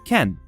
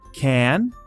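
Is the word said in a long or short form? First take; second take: short; long. First: The word is said with a short, reduced vowel. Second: The word is said with a long, full vowel. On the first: "short ken" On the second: "the long can"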